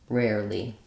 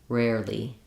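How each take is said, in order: The two takes are said the same way.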